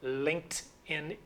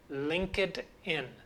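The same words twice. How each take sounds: First: Linked ends in a t sound, one syllable. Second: Linked ends in an extra id syllable. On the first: The speaker calls it right. "LinkedIn is the correct pronunciation. In fact, linked sounds like T" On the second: The speaker calls it wrong. "you will hear many people saying LinkedIn"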